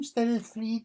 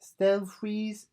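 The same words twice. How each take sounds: First: "Stelfreeze" said as "Stella-three", questioning and high; unsure pronunciation. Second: "Stelfreeze" in two syllables, Stel-freeze, questioning and high; trying another pronunciation. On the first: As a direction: try "Stelfreeze" in three syllables, Stel-a-three. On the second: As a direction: test out "Stelfreeze" with a clear final z. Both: Shown as a demonstration. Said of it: "is that how you pronounce his name?".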